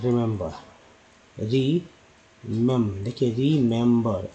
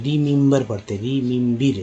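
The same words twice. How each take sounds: First: रिमेंबर said "ri-mem-ber", ri then mem then ber; रिमेंबर with i, e and a-like vowels; correct pronunciation. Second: रिमेंबर said as "rimimbar", every e an i sound; the mistaken way: रिमेंबर with i vowels throughout; रिमेंबर mispronounced "rimimbir"; wrong pronunciation. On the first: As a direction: break it up: री, मेम, then रिमेंबर slowly. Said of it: "इसको actually में बोला जाता है". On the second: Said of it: "ये गलत हो जाता है।". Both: Shown as a demonstration.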